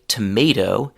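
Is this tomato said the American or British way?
American. It is said with an American accent. "in the U S we say tomato"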